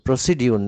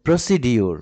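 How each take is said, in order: First: The middle consonant sounds like d followed by y. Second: The same.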